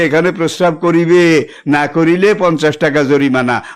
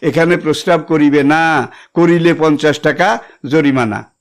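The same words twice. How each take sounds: First: The pause comes right before 'na'. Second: The pause comes right after 'na'.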